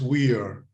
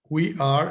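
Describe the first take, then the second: First: The two words are joined into one syllable. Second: The two words are said separately in full.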